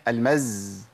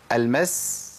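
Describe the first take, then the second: First: المز ending on a long buzzed z; breath stopped, zay. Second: المس held on a long hissing s; breath flowing on seen. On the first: Teacher showing students the blocked breath, المز with buzzed z. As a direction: hold a voiced z at the end of المز. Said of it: "منعت النفس". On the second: Teacher showing students seen's running breath, المس with long s. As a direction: let breath run through the s of المس. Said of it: "مشيت نفس". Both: Shown as a demonstration.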